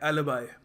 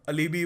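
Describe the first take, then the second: First: The last syllable sounds like 'bye'. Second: The last syllable sounds like 'bee'. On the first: The speaker calls it right. "इसको pronounce करने का सही तरीका है" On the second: The speaker calls it wrong. "काफ़ी लोग इसको pronounce गलत करते हैं"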